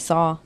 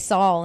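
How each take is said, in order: First: The word ends with a vowel, no L. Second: The word ends with an L sound.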